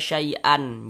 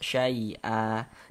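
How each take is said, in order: First: The word ends with a short a and n. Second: The word ends in a lengthened a vowel. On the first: The speaker calls it wrong. "Jangan dibaca syai'an" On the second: The speaker calls it right. "dipanjangkan dua harokat"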